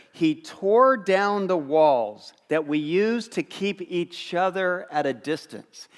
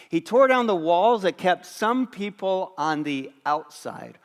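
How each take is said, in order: First: Slow, weighty reading of the verse; slow scripture reading. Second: Said in the usual way. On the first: Shown as a demonstration. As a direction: read it slowly, leaning on tore. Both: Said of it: "Here's how Paul starts in Ephesians".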